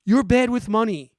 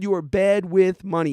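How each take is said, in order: First: You're hit hardest, falling tune at the end; stress on you're. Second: Bad hit hardest, falling tune at the end; stress on bad. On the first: Host scolding viewers who buy whole life, stress on you're. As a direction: lean on you're to blame the listener. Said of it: "If you need whole life insurance". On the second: Host repeating the verdict to viewers, stress on bad. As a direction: land the word bad like a verdict. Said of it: "Yes, I said it". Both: Shown as a demonstration.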